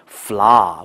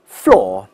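First: The word has an open vowel, no r. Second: The word sounds the same as floor. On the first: "但在美语当中" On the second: "英国人会发现这两个词是完全读的一样的。第一个词叫floor"

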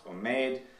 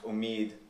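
First: The second vowel is a different, mid vowel. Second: The second vowel is like the vowel in deed. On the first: This is the older Indian pronunciation. "would have been pronounced omeid" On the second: This is the pronunciation following Iranian usage. "come to be pronounced omid"

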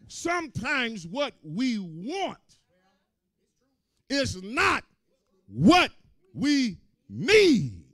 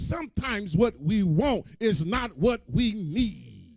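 First: The sentence is said at a slower pace. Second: The sentence is said at a normal pace.

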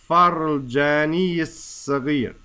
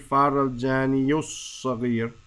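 First: An i vowel links jani into saghir. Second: A u vowel links jani into saghir. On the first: The speaker calls it right. "It's going to say jani yis-saghir. It's just going to just run over into there from our kasra" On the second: The speaker calls it wrong. "It's not going to say farul jani yus-saghir"

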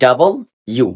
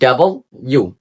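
The two takes are said the same way.

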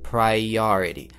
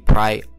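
First: A light glide joins the I and O vowels. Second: The I and O vowels meet with no glide. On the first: The speaker calls it right. "между ними мы должны поставить небольшой такой как бы невзначай звук" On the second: The speaker calls it wrong. "вам захочется произнести priority"

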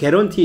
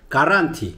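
First: The first vowel sounds like 'eh'. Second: The first vowel sounds like 'ah'. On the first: This is how Koreans say it. "우리는 게런티 이렇게 얘기하지만" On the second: This is how Georgians say it. "얘네들은 가란티"

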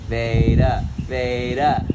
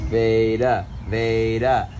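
No difference in how they are said.

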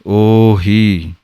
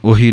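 First: The word is pronounced with full, long sounds. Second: The word is pronounced softly with lighter sounds. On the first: The speaker calls it right. "ਊੜੇ ਨੇ ਵੀ ਪੂਰੀ ਆਵਾਜ਼ ਦੇਣੀ ਹੈ ... ਹਾਹੇ ਬਿਹਾਰੀ ਦੀ ਆਵਾਜ਼ ਵੀ ਪੂਰੀ ਆਉਣੀ ਹੈ" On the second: The speaker calls it wrong. "ਇਹਨੂੰ ਉਹੀ ਨਹੀਂ ਕਹਿਣਾ ਹੈ"

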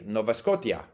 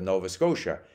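First: It is pronounced with Czech letter values. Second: It is pronounced with English letter values. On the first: The speaker calls it wrong. "he continued to say Nova Scotia" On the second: The speaker calls it right. "instead of Nova Scotia"

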